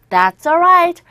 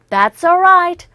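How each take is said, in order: The two takes are said the same way.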